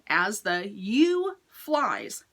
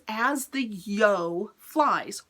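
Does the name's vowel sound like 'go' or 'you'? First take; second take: you; go. First: The name is said with an oo vowel. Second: The name is said with an oh vowel. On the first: The speaker calls it wrong. "I've been saying As the You Flies. Wrong, [name], wrong" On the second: The speaker calls it right. "it's yo, like yo-yo"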